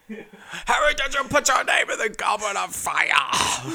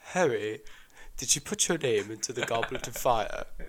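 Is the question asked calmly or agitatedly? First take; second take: agitatedly; calmly. First: The question is asked agitatedly. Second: The question is asked calmly.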